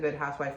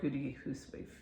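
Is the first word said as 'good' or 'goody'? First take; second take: good; goody. First: The first word is said as one syllable, good. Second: The first word is said as two syllables, goody. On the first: "I don't know if it's pronounced the Good Housewife" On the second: "or Goody Housewife"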